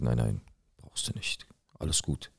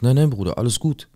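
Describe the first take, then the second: First: Whispered, voice dropped right down; hushed whisper. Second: Higher and louder, waving it off; emphatic loud reassurance. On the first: To his neighbour, turning down payment: soft whisper. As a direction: murmur it low so only he hears. Waves off paying, hushed aside. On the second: Telling his neighbour nothing is wrong: loud brushing-off. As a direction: insist everything is fine, loud and bright. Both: Retold or imitated.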